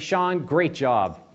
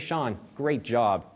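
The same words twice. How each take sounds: First: It sounds warm and positive. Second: It sounds flat and sarcastic.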